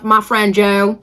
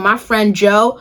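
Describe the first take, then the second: First: It is said in a Southern American accent. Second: It is said in the speaker's ordinary accent.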